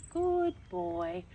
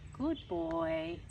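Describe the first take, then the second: No difference in how they are said.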